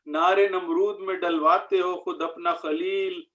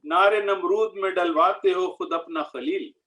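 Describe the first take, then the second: No difference in how they are said.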